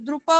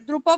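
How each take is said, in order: No difference in how they are said.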